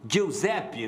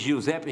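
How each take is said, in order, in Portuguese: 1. É dito com um sotaque mais italiano. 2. É dito com um sotaque brasileiro comum.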